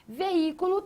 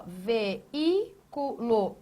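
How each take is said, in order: First: Said in the usual way. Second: "Veículo" in four slow separated syllables. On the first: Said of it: "Veículo também, ó". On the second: Shown as a demonstration. Teacher reveals the hiatus, syllable by syllable. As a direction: break "Veículo" into ve, í, cu, lo with pauses. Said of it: "O que você tem aqui".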